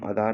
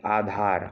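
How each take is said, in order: First: "आधार" with a short first a, quickly; wrong form shown. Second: "आधार" with a long opening aa; correct form shown. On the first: Teacher showing the mistake to avoid, आधार with short first vowel. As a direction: open "आधार" on a brief अ. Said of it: "नहीं बोलते". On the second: Teacher correcting students' word, आधार with long आ. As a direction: open "आधार" on a full आ. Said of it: "हम आधार नहीं बोलते". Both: Shown as a demonstration.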